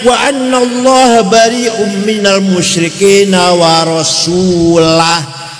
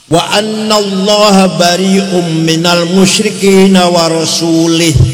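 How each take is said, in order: First: The last word ends with an 'ah' sound. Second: The last word ends with an 'ih' sound. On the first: God and his Messenger are both free of the idolaters. The speaker calls it right. "Yang benar bacanya" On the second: God is free of the idolaters and of his Messenger. The speaker calls it wrong. "ada orang baca Quran salah"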